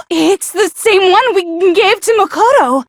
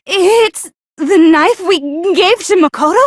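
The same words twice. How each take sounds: First: "Makoto!" landed with a firm falling tune; confident statement, pitch falling on "Makoto"; certain exclamation. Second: "It's the knife we gave to Makoto?" asked with a rising tune; unsure question, pitch climbing at the end; questioning rise. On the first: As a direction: state it as a sure realisation. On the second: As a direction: let "Makoto?" lift up as a doubtful question. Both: Acted.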